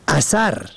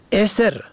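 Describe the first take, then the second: First: اثر with short "a" in both syllables, "asar"; fatha on both syllables. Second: اسر with short "e" first, "esr"; kasra on first. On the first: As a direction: say اثر as "a-SAR". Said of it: "به فتح اول و دوم". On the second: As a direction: open اسر on "e", not "a". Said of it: "به کسر اول و سکون دوم". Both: Shown as a demonstration.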